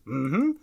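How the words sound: A two-part closed-mouth hum that sounds agreeing. The answer is yes. "Yes is mm-hmm"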